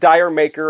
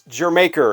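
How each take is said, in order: First: It sounds like the words 'dire maker'. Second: It sounds like the word 'Jamaica'. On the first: The speaker calls it wrong. "It's not Dire Maker" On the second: The speaker calls it right. "it's Jamaica"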